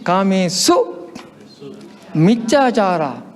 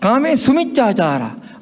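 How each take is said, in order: First: The break comes after "Kamesu". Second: The break comes after "Kame". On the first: The speaker calls it right. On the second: The speaker calls it wrong.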